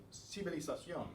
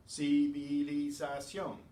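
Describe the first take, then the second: First: Civilización run together quickly; brisk, connected civilización; sped up. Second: Civilización slow and loud, ci-vi-li-za-ción; deliberate, syllable-by-syllable civilización; every syllable separate. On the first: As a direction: say civilización quickly, syllables flowing as one word. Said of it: "when you speed it up". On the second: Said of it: "Every syllable is separate". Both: Shown as a demonstration.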